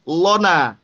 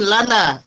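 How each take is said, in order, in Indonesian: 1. Suku kata pertama memiliki vokal tebal seperti 'o'. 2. Suku kata pertama memiliki 'a' tipis. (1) "jangan lona" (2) "la tipis"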